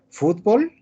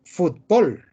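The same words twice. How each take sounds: First: Fútbol stressed on the last syllable, futBOL; Fútbol with the stress on the end, BOL; aguda fútbol. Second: Fútbol stressed on the first syllable, FUTbol; fútbol with the stress on the front, FUT; llana fútbol. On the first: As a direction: say Fútbol as futBOL, Mexican style, tune rising. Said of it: "México y Centroamérica pronuncian agudo". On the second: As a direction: say fútbol as FUTbol, the Spanish way, falling. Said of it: "España y la mayor parte de América pronuncian llana". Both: Shown as a demonstration.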